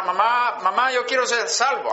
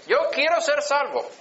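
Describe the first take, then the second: First: Small child asking mom to be saved, lightly voiced; child pleading. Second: Lightly voiced boy insisting he wants salvation; child pleading. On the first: Boy at five begging his mother, mild pleading child voice. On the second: Boy repeating his plea to his mother, mild high child voice. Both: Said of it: "Así dije".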